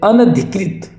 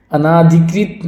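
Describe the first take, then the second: First: अनधिकृत said as "an-adhikrit"; correct short "na". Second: अनाधिकृत said as "anaa-dhikrit"; wrong long "naa". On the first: Teacher corrects the word, अनधिकृत with short "na". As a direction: keep the second a of अनधिकृत short. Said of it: "बिल्कुल गलत". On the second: Teacher rejects the form, अनाधिकृत with long "naa". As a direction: lengthen the second a of अनाधिकृत. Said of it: "नहीं होगा". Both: Shown as a demonstration.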